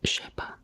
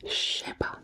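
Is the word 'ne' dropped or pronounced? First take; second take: dropped; dropped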